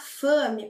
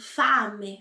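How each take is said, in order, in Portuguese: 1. A vogal A é mais fechada. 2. A vogal A é bem aberta. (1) "Nada de falar fame" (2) "Abre bem"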